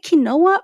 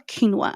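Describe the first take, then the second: First: Quinoa said as kih-NO-uh; three-syllable pronunciation. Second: Quinoa said as KEEN-wah; two-syllable pronunciation. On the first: Podcaster asking listeners which way to say it, quinoa as kih-NO-uh. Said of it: "Is it quinoa or quinoa?". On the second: Podcaster offering her own way to say it, quinoa as KEEN-wah. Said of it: "I say quinoa". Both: Shown as a demonstration.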